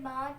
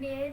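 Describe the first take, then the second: First: It is said the Arabic way, ending in 'a'. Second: It is said the Urdu way, ending in 'e'. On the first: The speaker calls it right. "बल्कि बा ता सा हा खा सा ज़ा ता ज़ा पढ़ें" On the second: The speaker calls it wrong. "Urdu तलफ़्फ़ुज़ से परहेज़ करें, यानी बे ते से हे खे तोय ज़ोय हरगिज़ ना पढ़ें"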